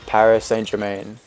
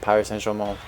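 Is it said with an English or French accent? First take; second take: English; French. First: It is said with an English-speaker accent. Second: It is said with a French accent.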